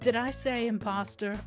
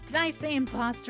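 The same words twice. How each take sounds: First: It is said in a natural voice. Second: It is said in his nasal put-on voice.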